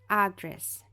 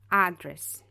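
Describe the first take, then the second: Both takes have the same delivery.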